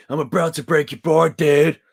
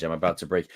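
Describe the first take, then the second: First: Loud, higher put-on American dude accent. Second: Said in the usual way. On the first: Shown as a demonstration. Streamer twists the line he read, loud American dude accent. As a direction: blurt it as a cartoon American board dude. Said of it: "do more American accents".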